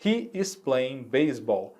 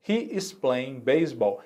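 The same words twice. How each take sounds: First: Said in the usual way. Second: He is playing baseball, slow and careful with every word clear; slow model sentence. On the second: Shown as a demonstration. Teacher repeating the example for students, slow and careful. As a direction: spell it out slowly for learners. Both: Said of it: "Olhando aqui nesse nosso exemplo".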